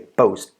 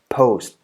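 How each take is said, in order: First: The p is released without a puff of air. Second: The p is released with a puff of air. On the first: The speaker calls it wrong. "You don't say" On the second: The speaker calls it right. "all aspirated"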